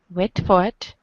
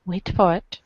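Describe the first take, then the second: No difference in how they are said.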